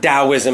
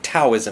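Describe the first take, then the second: First: The word begins with a D sound. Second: The word begins with a T sound. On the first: The speaker calls it right. "spelled with a T, but pronounced as a D" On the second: The speaker calls it wrong. "they'll pronounce it Taoism with a T"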